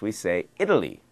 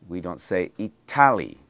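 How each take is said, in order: First: The middle consonant is a soft D-like tap. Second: The middle consonant is a clear T sound. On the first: The speaker calls it right. "In English, we say" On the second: The speaker calls it wrong. "We don't say"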